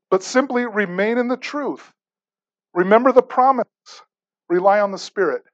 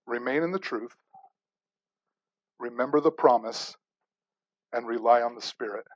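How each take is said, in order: First: Higher, firmer restatement of the three points; emphatic recap for the congregation. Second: Softer, lower, spaced out reading of the three points; quiet, measured recitation of the points; hushed, deliberate. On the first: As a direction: press each point home. Repeats the three points stronger. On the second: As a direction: lay each point down gently with long pauses. Lists three points slowly, hushed. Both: Acted.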